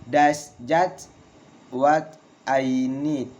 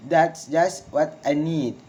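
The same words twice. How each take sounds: First: Slow, broken after "just", "need" falling; slow falling exclamation. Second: Connected phrase, falling on "need"; falling exclamation. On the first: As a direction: dictate it in pieces for learners. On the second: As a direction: model the exclamation, "need" dropping. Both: Shown as a demonstration. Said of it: "Valid intonation in exclamation".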